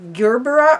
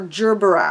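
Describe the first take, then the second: First: It begins with a hard G sound. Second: It begins with a soft G sound. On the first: "a hard C, a G" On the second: "or a soft G"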